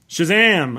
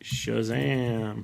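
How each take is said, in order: First: It is said loudly with excitement. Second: It is said flatly, without energy.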